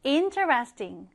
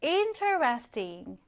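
First: Interesting, slow, stress on IN; stress on first syllable. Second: Interesting, slow, stressed on IN; stress on first syllable. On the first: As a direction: model it again, IN-teresting. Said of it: "자, 어떻게 읽어요?". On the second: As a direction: lean on the front, IN-teresting. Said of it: "interesting도 강세는 앞에 들어갑니다". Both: Shown as a demonstration.

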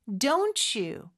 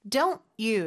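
First: "Don't you" run together as "don-chu"; linked ch sound. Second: "don't you" with the two words cut apart; words separated. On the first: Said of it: "이렇게 치읓 발음으로". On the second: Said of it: "끊어주듯이 발음해도 되고요". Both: Shown as a demonstration.

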